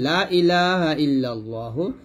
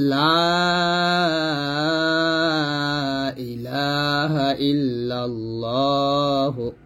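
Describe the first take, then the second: First: The vowel in 'la' is cut short. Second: The vowel in 'la' is held long. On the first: Surely there are other gods besides God. The speaker calls it wrong. "তিন আলিফ টান না দিয়ে যদি বলি" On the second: There is no god but God. The speaker calls it right. "এখানে লাতে তিন আলিফ টান হবে"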